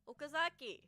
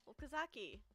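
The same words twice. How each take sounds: First: The name is called in a louder voice. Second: The name is called in a quiet voice. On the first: "I raised my voice louder than before" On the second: "I tried calling him in the quiet voice"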